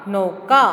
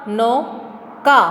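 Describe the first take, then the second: First: Said in the usual way. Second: नौका drawn out slowly; teacher drawling नौका slowly; slow stretched reading. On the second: Shown as a demonstration. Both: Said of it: "इसी तरह दूसरा".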